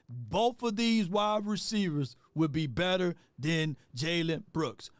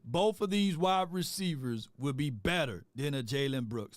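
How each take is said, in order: First: It is said in a put-on, imitated voice. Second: It is said in the speaker's own normal voice.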